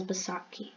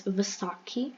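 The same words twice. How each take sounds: First: Baisakhi starting on a B sound; B in place of V at the start of Baisakhi; pronounced with B. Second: Vaisakhi starting on a V sound; V, not B, at the start of Vaisakhi; pronounced with V. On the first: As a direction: say Baisakhi with an opening B. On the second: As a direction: say Vaisakhi with an opening V. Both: Shown as a demonstration. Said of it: "also pronounced as".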